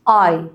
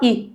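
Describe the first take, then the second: First: A long vowel sound, as in 'ride'. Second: A short vowel sound, as in 'sit'. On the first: "الصوت الطويل اي" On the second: "الصوت القصير بتاعه اي، بص قصير"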